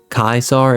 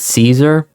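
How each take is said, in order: First: The word begins with a hard K sound. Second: The word begins with a soft S sound. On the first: This is the Latin pronunciation. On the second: This is the Americanized pronunciation.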